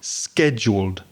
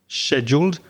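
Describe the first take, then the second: First: It begins with a hard k sound. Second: It begins with a soft sh sound. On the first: "in American English, it tends to have a hard k sound" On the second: "the way that I and many British English speakers say, and that's with a very soft sh"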